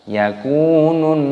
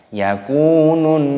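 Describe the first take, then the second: Both takes have the same delivery.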